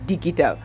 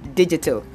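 First: The g is a hard g sound. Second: The g is a soft j sound. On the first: The speaker calls it wrong. "the word is not digital" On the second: The speaker calls it right. "the word for day 5 is digital"

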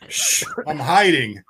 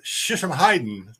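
First: The phrase is said slowly, word by word. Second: The phrase is run together quickly. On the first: It reveals someone hiding. "but slowly it's" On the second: It sounds like a real fighting discipline. "sounds really legit when said quickly"

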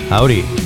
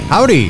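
First: It is said flatly, with little enthusiasm. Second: It is said with more enthusiasm.

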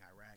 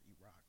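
First: The word is pronounced in a casual way. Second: The word is pronounced in a careful way. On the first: The speaker calls it wrong. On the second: The speaker calls it right.

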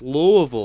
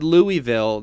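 First: The name is said the local Southern way. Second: The name is said the common broadcaster way. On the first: "as from the South as one could be, he gets on to my case" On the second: "That's typically how I've heard broadcasters say it"

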